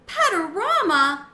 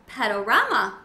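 First: High, loud, slow squeak with a laugh; a small hamster squealing the name in glee; excited squeak. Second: Said in the usual way. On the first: Acted. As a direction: squeak it out, thrilled and delighted. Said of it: "I squeaked". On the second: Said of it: "Gigi replied".

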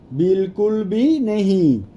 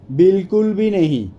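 First: Stretched words, spaced for learners; teacher's slow demonstration; slow model repeat. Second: Said in the usual way. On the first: Shown as a demonstration. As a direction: say it slowly, word by word.

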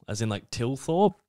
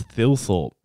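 First: Tilthorpe, said with a plain T sound. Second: Thilthorpe, TH said as in think. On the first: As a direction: say Tilthorpe with a hard T. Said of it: "but I think it's Thilthorpe". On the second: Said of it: "So the double T H". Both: Shown as a demonstration.

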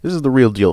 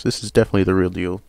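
First: Excited. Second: Said in the usual way. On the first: Real, not acted. Hyping a card.

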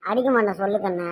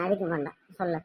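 First: Said in the usual way. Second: Much softer, lower gentle promise; soft coaxing. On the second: Acted. Mother softly coaxes her scared daughter to speak. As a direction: ease her fear, nearly under breath.

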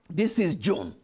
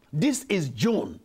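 Both takes have the same delivery.

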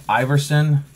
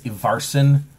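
First: Iverson said the American way, EYE-ver-son; American pronunciation. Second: Iverson said as EE-var-son, a Scandinavian try; fancier pronunciation. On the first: Reading the designer's name aloud, Iverson as an American says it. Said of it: "I'm gonna say it as an American would say it". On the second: Guessing the proper Scandinavian form of Iverson, fancier pronunciation. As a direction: Iverson with a short EE and a broad AR. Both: Shown as a demonstration.

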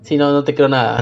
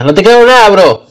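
First: Said in the usual way. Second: Loud incredulous shout; shouted disbelief. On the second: Real, not acted. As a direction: yell it, not buying it.

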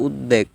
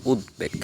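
First: উদ্বেগ with doubled d, ud-deg; wrong pronunciation. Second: উদ্বেগ with d and b both sounded, ud-beg; correct pronunciation. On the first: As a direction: drop the b from উদ্বেগ. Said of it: "অনেকে উদ্বেগ বলে". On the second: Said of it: "সঠিক উচ্চারণ হচ্ছে". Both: Shown as a demonstration.

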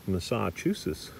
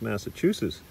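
First: MASSACHUSETTS as muh-SAH-chusetts, slowed down; joke mispronunciation. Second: MASSACHUSETTS as mass-uh-CHOO-sets, short first vowel; usual pronunciation. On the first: Teacher mocking the class's logic, muh-SAH-chusetts, slow. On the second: Teacher arguing with class, MASSACHUSETTS starting with MASS. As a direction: say MASSACHUSETTS normally, opening with MASS. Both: Retold or imitated. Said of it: "You don't pronounce Massachusetts".

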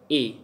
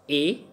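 First: "A" pitched lower, falling. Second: "A" pitched high, rising. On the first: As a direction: drop the vowel "A" down low. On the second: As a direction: lift the vowel "A" up high. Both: Shown as a demonstration. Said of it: "high pitch and low pitch".

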